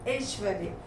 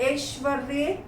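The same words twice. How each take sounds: First: Said in the usual way. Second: ऐश्वर्य with a drawn-out "r" and rising end; misspelt form. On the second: Shown as a demonstration. Teacher reads the error list, misspelt ऐश्वर्य as "eshvar-re". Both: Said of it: "मात्रा संबंधी अशुद्धियाँ दी गई".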